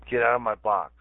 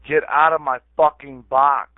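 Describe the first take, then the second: First: Said in the usual way. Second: Loud, higher, forceful order; real angry outburst. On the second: Real, not acted. Ordering someone out of his chat box, angry shout. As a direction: shout it to drive them out. Repeats the order, escalating angrily.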